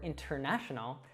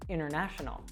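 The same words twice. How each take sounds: First: The t sound after the n is pronounced. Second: The t sound after the n is dropped. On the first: "instead of saying" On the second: "we'll actually drop the T sound"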